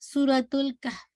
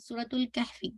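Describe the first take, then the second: First: The last word ends on a silent f sound. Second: The last word ends with an added i vowel. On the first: The speaker calls it right. "तो आपने कहना है सूरतुल कहफ" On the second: The speaker calls it wrong. "या कहफ़ी कहते हैं"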